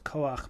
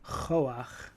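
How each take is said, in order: First: The word begins with a hard k sound. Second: The word begins with a raspy ch sound. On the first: This is the word's usual form. "the word is Koach" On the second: This is the form used within the prayer. "in the context of the prayer it's Choach"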